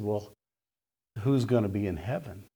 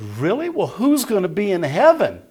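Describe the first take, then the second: First: Low, soft, subdued question; quiet. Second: High, loud disbelief as the shocked lady; astonished. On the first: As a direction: ask it softly after the shock has sunk in. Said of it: "then it gets real quiet". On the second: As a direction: exclaim it in high-pitched shock. Lady astonished that no denomination qualifies. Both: Retold or imitated.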